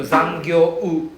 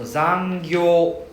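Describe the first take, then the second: First: Zangyo-u with an added U, said slowly and louder; wrong zangyo-u. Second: Zangyo very slow and louder, O dragged out; slow zangyo, long O. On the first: Teacher mocking the wrong zangyo-u for the class. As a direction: overdo the U on zangyo-u. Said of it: "Don't need to". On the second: Teacher modelling zangyo with a long O for the class. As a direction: stretch zangyo, holding the O. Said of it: "just drag out the sound only". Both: Shown as a demonstration.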